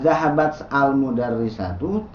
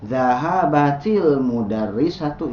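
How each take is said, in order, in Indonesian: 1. Huruf t diucapkan tanpa vokal setelahnya. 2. Huruf t diikuti vokal i. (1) "Apakah dibacanya zahabat al mudarrisatu? Tidak ya" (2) "sukun yang pertama biasanya dikasrohkan"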